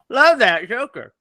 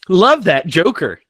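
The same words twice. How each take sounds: First: It is said in a creepy, smiling voice. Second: It is said in a plain, ordinary voice. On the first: The speaker calls it right. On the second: The speaker calls it wrong.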